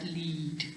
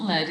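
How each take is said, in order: First: "lead" said as "leed", softly; long E sound. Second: "lead" said like "led"; short E vowel. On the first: Teacher giving the intended word, "lead" with a long E. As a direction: rhyme "lead" with "need". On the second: Teacher showing the wrong reading, "lead" pronounced "led". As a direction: rhyme "lead" with "bed". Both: Shown as a demonstration. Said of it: "this is an E sound".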